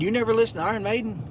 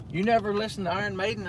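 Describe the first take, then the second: First: Imitating a Danish buddy's accent, higher and fast; quick mock Danish accent on a surprised question. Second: Put-on Danish accent. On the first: Telling viewers how his Danish friend quizzed him, in a mock Danish accent. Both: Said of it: "In his Denmark accent".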